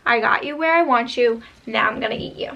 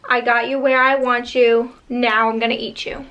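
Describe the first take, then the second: First: Quieter, lightly menacing boogeyman; scary voice, softer. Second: Mock scary monster voice. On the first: Retold or imitated. Boogeyman repeating threat to kids, quieter and menacing. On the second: Boogeyman taunting trapped kids, mildly menacing. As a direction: lightly growl it like a boogeyman. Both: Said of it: "like, a scary voice saying".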